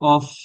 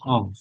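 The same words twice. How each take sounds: First: The word ends with an f sound. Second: The word ends with a v sound. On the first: The speaker calls it wrong. "অফ কেউ বলবেন না" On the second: The speaker calls it right. "ভ, উপরের দাঁত নিচের ঠোঁটের সাথে এসে বাজবে।"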